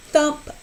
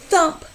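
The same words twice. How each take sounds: The two takes are said the same way.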